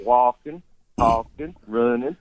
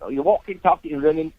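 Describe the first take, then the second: First: "walking, talking, running" drawn out slowly; "walking, talking, running" slow, each vowel lengthened; slowed-down Southern drawl. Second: "walking, talking, running" cut short, slightly higher; "walking, talking, running" said quick and clipped; clipped Cockney words. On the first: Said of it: "if you slow it down". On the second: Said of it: "they clip everything". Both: Shown as a demonstration.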